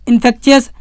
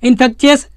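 No difference in how they are said.

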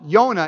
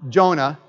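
First: The name is pronounced the Hebrew way. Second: The name is pronounced the English way.

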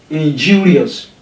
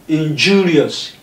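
Both takes have the same delivery.

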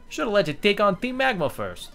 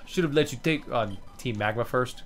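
First: It is said in a put-on Italian accent. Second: It is said in the speaker's normal accent.

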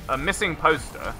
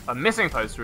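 First: The stress falls on the word poster. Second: The stress falls on the word missing. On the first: A poster that has been lost. "a missing poster is a poster that you have lost" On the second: A poster with the word missing printed on it. "A missing poster is a poster that says missing on it"

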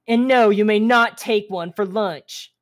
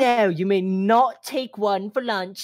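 First: It is said with a Southern American accent. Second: It is said with a British-sounding accent.

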